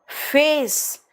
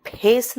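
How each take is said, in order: First: "फेस" begun with a long breathy f; slow "फेस" with air through the f; English f. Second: "फेस" begun with aspirated p; wrong Hindi pha. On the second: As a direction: pop the lips into "फेस" as "phes". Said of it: "फेस नहीं". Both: Shown as a demonstration.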